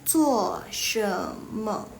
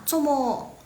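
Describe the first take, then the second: First: The phrase is said in full, three syllables. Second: The phrase is shortened into two quick syllables. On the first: This is the full standard form. "Kalau dipanjangin" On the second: This is the Malaysian colloquial form. "itu yang Malaysia guys"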